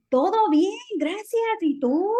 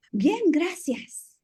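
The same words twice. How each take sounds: First: High, loud, bright Todo bien, gracias; upbeat Spanish greeting demo; with energy. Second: High, slow, hesitant Bien, gracias; drawn-out weak reply; the boring answer to avoid; the old default answer. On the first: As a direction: sell it with real excitement. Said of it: "say it with, like, energía". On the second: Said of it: "Instead of saying". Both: Shown as a demonstration.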